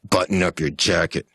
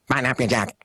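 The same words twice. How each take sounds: First: The voice sounds angry. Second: The voice sounds angry and fearful together. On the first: "That's the anger" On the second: "combined them into"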